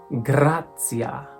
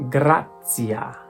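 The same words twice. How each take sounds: No difference in how they are said.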